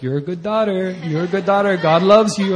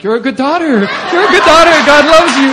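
First: Higher, tentative, holding back; hesitant blessing. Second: Much higher and louder, bursting with confidence; encouraged blessing. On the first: Teller telling a girl she's loved, higher and hesitant. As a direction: say it unsure, eyes shut. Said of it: "I was like". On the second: Teller blessing the girl again, now encouraged, much higher and louder. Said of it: "I'm encouraged". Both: Retold or imitated.

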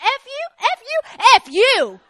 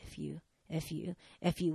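First: High, loud hammed-up comeback; shouted curses, acted. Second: Soft, low repeated insult; muttered mock curses. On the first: Woman back up the stairs cursing him back, loud and indignant. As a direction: hurl it back, building with each repeat. Acts out yelling back at stranger. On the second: Stranger cursing behind her on the stairs, quietly muttered. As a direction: mutter it lightly, imitating him, one per step.

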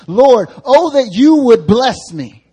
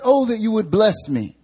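First: Loud, slow pleading cry; crying out to God. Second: Said in the usual way. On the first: Acted. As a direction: cry it out to the Lord, slowly and loudly. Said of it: "He had to cry out". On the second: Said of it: "It just says".

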